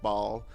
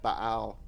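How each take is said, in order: First: The name is said as one syllable. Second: The name is split into two syllables. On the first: "but I think it's just Baal" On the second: "whether to break it up and be like Baal"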